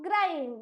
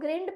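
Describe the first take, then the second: First: The vowel is a long eye sound. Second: The vowel is a short i sound. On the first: The speaker calls it right. "मैं इसको पढ़ती हूँ ग्राइंड, यानी कि आई की आवाज आई है" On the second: The speaker calls it wrong. "अरे मैं इसको ग्रिंड पढ़ती हूँ क्या? नहीं"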